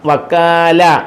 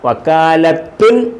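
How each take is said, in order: First: The word ends without a 'tun' sound. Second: The word ends with a 'tun' sound. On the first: The speaker calls it right. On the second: The speaker calls it wrong.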